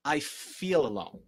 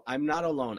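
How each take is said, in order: First: Slow, honest admission; slow sincere acknowledgement. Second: Chanted, louder, higher, insistent repetition; mock self-convincing chant; mock chanting denial. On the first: Shown as a demonstration. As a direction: say it slowly and own it. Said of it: "the truth is". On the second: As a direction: chant it like you're trying to convince yourself. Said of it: "sit in the corner and go".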